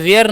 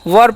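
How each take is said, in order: First: The vowel is an 'air' sound. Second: The vowel is a short central 'er' sound. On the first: The speaker calls it wrong. "वेयर नहीं" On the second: The speaker calls it right. "वर पढ़ते हैं"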